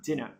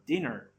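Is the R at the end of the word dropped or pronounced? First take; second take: dropped; pronounced. First: The final R sound is left out. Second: The final R sound is clearly pronounced. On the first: "if you don't want to produce the R sound" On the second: "if you want to produce the R sound, the more American um, way of producing it"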